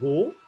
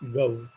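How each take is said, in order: First: The vowel is a single steady sound. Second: The vowel glides from a towards oo. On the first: This is how people usually say it. "we pronounce that word as go" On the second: This is the standard pronunciation. "its actual pronunciation is gov"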